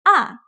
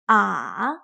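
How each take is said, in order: First: The pitch starts high and falls quickly. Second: The pitch dips down then rises again. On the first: "It starts very high but quickly goes down" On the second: "It starts in the middle, dips down, and then goes up again"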